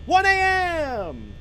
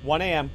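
First: High, loud, drawn-out holler; mock-dramatic yell. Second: Said in the usual way. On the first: Real, not acted. Player calling out the game clock, hollered.

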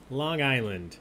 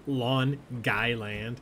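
First: Said in the usual way. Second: Slow Long Island drawl of "Long Guyland"; Long Island accent. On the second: Pretend. Host mocks the Long Island accent for trivia players. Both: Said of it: "the correct answer is Long Island".

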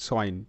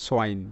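The two takes are said the same way.

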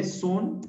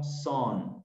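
First: SUN read letter-for-sound as "soon"; "sun" as it is written; spelling pronunciation. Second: SON said like English "son" for sun; teacher's model "son"; correct pronunciation. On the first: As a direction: say "sun" with a Spanish U. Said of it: "se escribe sun". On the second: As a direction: read it with an O-like vowel. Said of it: "pero yo lo leo son". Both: Shown as a demonstration.

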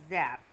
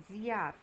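First: Zear said without the I, a plain e after Z; the mistaken zear, no I sound; wrong zear pronunciation. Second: Ziar with a clear I after the Z, zi-ar; correct ziar. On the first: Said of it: "nu zear". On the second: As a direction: say ziar with the I heard. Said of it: "După Z se aude I". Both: Shown as a demonstration.

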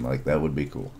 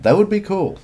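First: Said in the usual way. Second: Much higher, eager "That would be cool"; light up on "would" with a sharp high jump; excited. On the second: Real, not acted. Excited about a manga idea.

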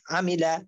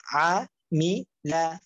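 First: "আমিলা" run together as one word; "আমিলা" read whole, in one go; joined-up reading. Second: "আ, মি, লা" one syllable at a time; teacher splitting "আ, মি, লা" for learners; broken-up syllables. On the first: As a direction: blend the syllables of "আমিলা" without gaps. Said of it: "একসাথে reading করবেন". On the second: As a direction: clear gap after each part of "আ, মি, লা". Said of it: "আপনারা ভাঙ্গা উচ্চারণ করবেন". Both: Shown as a demonstration.

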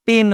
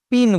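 First: পেন drawn out with an "e" vowel; correct pronunciation. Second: পিন with an "ee" vowel; wrong pronunciation. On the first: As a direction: stretch পেন slowly as "pen", not "pin". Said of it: "আমরা পেন বলি". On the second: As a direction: say পিন as "pin", not "pen". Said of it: "পিন বলি না". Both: Shown as a demonstration.

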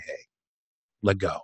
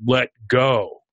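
First: Soft, low, hushed coaxing; quietly imitated reassuring whisper; gentle whisper. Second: Measured, lightly voiced booming universe; a hint of a booming, all-powerful voice. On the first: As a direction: murmur it like a trusted friend at the ear. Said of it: "whispers in your ear from the back". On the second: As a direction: lightly imitate a commanding cosmic voice. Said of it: "from the booming voice of the universe".

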